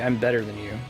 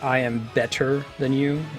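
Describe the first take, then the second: First: The T in better is a soft American flap. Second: The T in better is crisp and aspirated.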